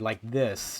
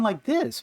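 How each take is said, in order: First: The voice is at a lower, natural pitch. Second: The voice is at a raised, performing pitch. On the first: This is the speaker's real voice. The speaker calls it right. "my voice is actually like this" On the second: This is a put-on voice for an audience. The speaker calls it wrong. "I keep going like this because I think I'm doing a show voice"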